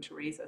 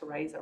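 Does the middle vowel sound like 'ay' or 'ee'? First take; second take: ee; ay. First: The middle vowel sounds like 'ee'. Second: The middle vowel sounds like 'ay'. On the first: This is the common form of the name. "rather than Theresa" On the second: This is the intended form of the name. "my mum just liked Theresa"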